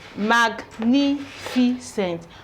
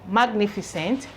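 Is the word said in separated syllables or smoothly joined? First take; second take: separated; smoothly joined. First: The syllables are separated by short pauses. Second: The syllables are joined in one smooth word. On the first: "let's try pronouncing them the way I just splitted it" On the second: "Put together you have"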